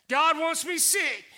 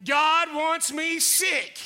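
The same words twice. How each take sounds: First: Said in the usual way. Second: "God wants me sick" said very slowly, each word drawn out; slow mocking lie. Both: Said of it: "Anybody believe that lie?".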